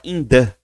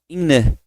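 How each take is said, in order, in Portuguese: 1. O som do th é falado completamente e com clareza. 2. O som do th é fraco e mal se ouve. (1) "Ele nem fala in the" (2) "eles falam assim, ó, in the. Esse T nem sai forte"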